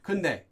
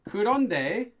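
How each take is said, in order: First: The word is said shortened, dropping a syllable. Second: The word is said in full, with all syllables.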